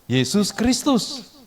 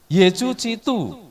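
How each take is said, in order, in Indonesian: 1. Bunyi s diucapkan sebagai bunyi s biasa. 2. Bunyi s berubah menjadi bunyi seperti ch, gaya Mandarin.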